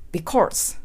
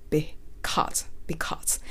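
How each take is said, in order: First: "because" with tongue tip lifting into an R, like "be-corse"; mistaken R-coloured because. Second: Soft, low "because" with tongue tip down; correct because, no R. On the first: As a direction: curl the tongue in "because" so an R creeps in. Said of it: "舌先が浮いてしまうので". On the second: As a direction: model "because" quietly with a clean, R-less vowel. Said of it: "舌先は一度も浮きません". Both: Shown as a demonstration.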